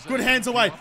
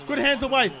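No difference in how they are said.

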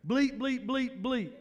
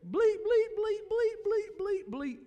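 First: Fewer bleeps. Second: High squeaky bleep noises for cussing; comic high bleeping for a cussing refusal; censor bleeps. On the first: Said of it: "I only got half the bleeps". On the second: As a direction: squeak out censor beeps in place of swear words. Friend's cussing voiced as censor bleeps. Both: Retold or imitated.

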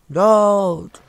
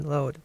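First: Impatient shout. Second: Said in the usual way. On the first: Real, not acted. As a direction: shout "Load" loud with a falling tune. Impatient at loading screen.

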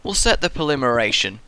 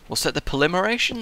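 First: Said in the usual way. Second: Puzzled. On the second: Shown as a demonstration.

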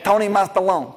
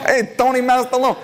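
First: Said in the usual way. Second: High, hammed-up Italian accent. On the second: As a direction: call it out in a mock Italian accent. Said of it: "Italian voice".

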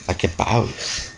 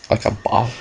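First: Slow, softer, dragged-out like a boss. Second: Said in the usual way. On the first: Acted. Gamer gloating after levelling up, in a slow, dragged-out cool-guy voice. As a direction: savour each word like a movie badass. Repeated slow low take.

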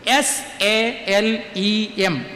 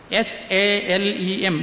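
First: Very slow, each letter of S A L E M separate; dictating S A L E M letter by letter; spelling the Hebrew word. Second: Very slow, softer letters S A L E M; softer dictation of S A L E M; spelling again, softer. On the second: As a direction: repeat the spelling quieter for writing down. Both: Shown as a demonstration. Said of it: "Hebrew വാക്ക് എഴുതിയിട്".

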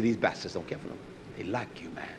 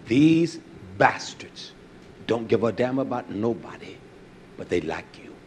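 First: Faster, softer version of the manager's words; quick, quieter retelling of the boss. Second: Slow, weighty imitation of the boss; imitating the manager. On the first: Retold or imitated. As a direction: rattle it off quietly. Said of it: "He said". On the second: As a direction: drag out these bastards like the old manager did. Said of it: "That's how he said it".

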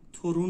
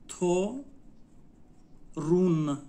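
First: Said in the usual way. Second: تو, long pause, then a firm رون; slow teaching demo of تو، رون; syllable by syllable. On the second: Shown as a demonstration. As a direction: sound out تو، رون as two separate beats. Teacher breaks word into syllables.

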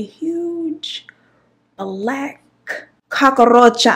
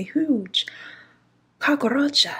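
First: Dramatic reveal. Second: Unvoiced whisper, rising; whispered dread. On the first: Retold or imitated. Reveal of the huge cockroach. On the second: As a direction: breathe the word in horror. Hushed reveal of the cockroach.

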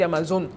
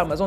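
First: "Amazon" with a clearly sounded n at the end; sounded final n. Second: "Amazon" ending in a nasal -on, n not sounded; nasal final vowel. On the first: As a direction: say "Amazon" ending like "zone", not nasal. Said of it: "on dit Amazon". (« Amazon » avec le n final prononcé, comme « zone ») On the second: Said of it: "on dit pas Amazon". (« Amazon » avec voyelle nasale finale, sans prononcer le n) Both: Shown as a demonstration.

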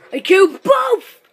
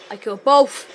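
First: Higher, louder, crowing on BOTH; excited exclamation. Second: Said in the usual way. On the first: Real, not acted. Gamer celebrating a double kill, excited shout. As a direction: exclaim it with BOTH ringing out high.

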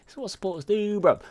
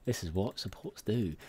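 First: High, pumped-up brag; excited brag. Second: Said in the usual way. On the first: Real, not acted. A support player hyping his own good play in a high, excited voice. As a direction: crow it up high and proud.

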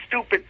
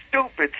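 No difference in how they are said.

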